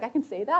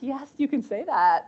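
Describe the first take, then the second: First: Tentative surprised question, rising on "that"; mock amazed question, pitched up; wide-eyed surprise. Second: Slow, higher "yes, you can", falling at the end; retold firm permission, drawn out; emphatic reassurance. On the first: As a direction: ask it as a retold, wide-eyed realisation. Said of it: "her eyes got wide". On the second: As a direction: give slow, encouraging confirmation, pitched up. Reassures the surprised admin.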